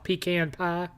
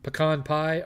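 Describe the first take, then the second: First: It is said in a Southern accent. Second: It is said in the speaker's plain accent.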